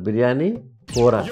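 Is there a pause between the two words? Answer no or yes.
yes. A short pause separates the two words. It names two separate dishes. The speaker calls it right.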